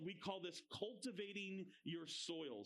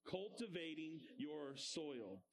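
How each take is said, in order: First: Said in the usual way. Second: Put-on slowed, lower repeat for the kids; slow call-and-response. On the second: Shown as a demonstration. Teacher leads children repeating the phrase, slow chant. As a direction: spell it out slowly so they echo. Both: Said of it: "Say that with me".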